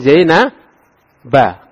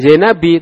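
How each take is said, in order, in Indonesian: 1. Nama ini berakhir dengan vokal a. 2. Nama ini berakhir dengan vokal i. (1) "tapi min Zaina ba" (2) "bukan Zaina bi"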